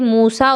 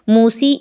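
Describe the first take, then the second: First: The word ends with a long 'ah' vowel. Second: The word ends with a long 'ee' vowel. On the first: The speaker calls it right. "हमें उस ज़बर को देखते हुए इसे मूसा और ईसा, सलात और ज़कात पढ़ना है" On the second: The speaker calls it wrong. "नहीं पढ़ना"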